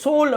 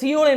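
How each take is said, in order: First: The name is said as Sol. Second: The name is said as Siyol. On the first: This is how the locals say it. "சோல் அப்படின்னு சொல்றாங்க" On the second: This is how outsiders usually say it. "அந்த சியோல"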